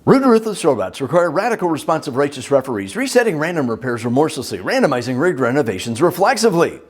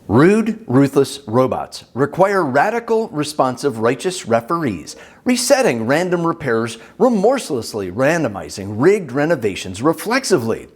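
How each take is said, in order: First: It is said very fast. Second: It is said at normal speaking speed.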